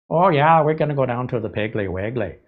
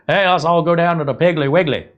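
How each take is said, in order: First: Imitating a Midwestern Scandinavian accent, Piggly Wiggly as "Peggly Weggly"; mock Wisconsin Norwegian lilt, starting high. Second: Imitating a Southern accent, raised and louder. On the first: Imagined Wisconsin shopper saying the name, Scandinavian Midwest accent. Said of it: "Norwegian, Scandinavian accent". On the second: Imagined Southern shopper inviting everyone, Southern accent. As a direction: play a Southern shopper calling friends in a Southern accent. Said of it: "gonna have a Southern accent".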